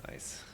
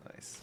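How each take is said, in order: First: Said in the usual way. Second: A breathy private nice; whispered. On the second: Real, not acted. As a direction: whisper it under your breath. Muttered reaction, then whispered.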